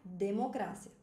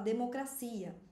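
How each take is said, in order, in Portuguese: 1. É dita com a acentuação e os sons do espanhol. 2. É dita com a acentuação e os sons do português. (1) "no espanhol a gente pronuncia democracia" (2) "No português a gente fala democracia"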